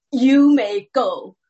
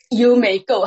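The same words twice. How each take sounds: First: Slow, louder, drawn-out judge voice leaning on may; mock judge dismissal. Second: Louder, clipped judge voice with the stress on you; the judge cutting her off for good; firm judge dismissal. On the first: Judge dismissing the woman in court, slow and louder. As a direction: play the judge waving her off, slowly. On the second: Retold or imitated. Judge silencing the woman again, louder and firmer. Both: 讲了三次.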